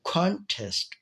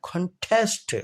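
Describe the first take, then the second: First: contest with कॉन high, test eased off; stress on कॉन of contest. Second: contest with कॉन light and test punched; stress on test of contest. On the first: Teacher models the noun for students, first-syllable stress on contest. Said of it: "test को मैंने आराम से पढ़ा और कन को". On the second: Teacher shows the verb form, second-syllable stress on contest. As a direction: throw the weight onto test in contest. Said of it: "test पर stress हो गया". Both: Shown as a demonstration.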